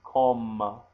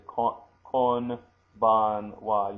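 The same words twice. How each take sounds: First: Kombanwa with the n turned into m before the b; natural kombanwa. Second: Konbanwa said very slowly with a clear n before the b; clumsy konbanwa. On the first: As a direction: let the n slide into an m in kombanwa. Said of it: "you say". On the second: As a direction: stretch out konbanwa with a hard n. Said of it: "You don't say kon, konbanwa". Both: Shown as a demonstration.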